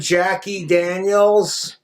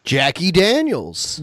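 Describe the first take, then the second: First: Daniels drawn out slowly; slow name drop. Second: Drawn-out, louder repeat of the name, pitched up; slow emphatic repeat. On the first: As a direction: linger on "Jackie Daniels" like a punchline. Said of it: "Have you met my girlfriend". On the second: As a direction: savor the name Jackie Daniels loudly. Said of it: "Have you met my girlfriend, Jackie Daniels?". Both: Shown as a demonstration.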